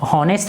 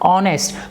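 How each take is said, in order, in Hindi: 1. यह शब्द h ध्वनि से शुरू होता है। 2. यह शब्द स्वर ध्वनि से शुरू होता है। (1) "हॉनेस्ट नहीं पढ़ते हैं" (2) "इसका ह से उच्चारण नहीं होगा"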